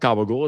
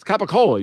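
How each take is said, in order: First: The word is said in a clipped dialect form. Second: The word is said in its full form. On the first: The speaker calls it wrong. "It's not gabagool" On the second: The speaker calls it right. "It's it's capicola"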